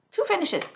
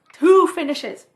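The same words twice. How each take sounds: First: Said in the usual way. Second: Two finishes, louder, punching two; emphatic repeat. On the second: Shown as a demonstration. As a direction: hit "two" hard in disbelief. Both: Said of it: "two, two finishes".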